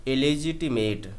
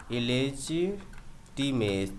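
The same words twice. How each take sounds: First: इलेजिटिमेट at a slower, even pace with a light t; model pronunciation. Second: इलेजिटिमेट spoken very slowly, syllable by syllable; slow syllable demo. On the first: Teacher repeats इलेजिटिमेट at a slower pace for the class. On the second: Teacher models इलेजिटिमेट slowly for students. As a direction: spell out इलेजिटिमेट slowly, each syllable apart. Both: Shown as a demonstration. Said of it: "ये देखिए आपका ऐसे पढ़ा जाएगा".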